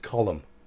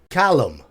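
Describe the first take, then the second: First: The first vowel is a rounded 'o' sound. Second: The first vowel is an open 'ah' sound. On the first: The speaker calls it right. "No, it's Caryatid column" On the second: The speaker calls it wrong. "it's probably an American accent thing. It's ah ah thing"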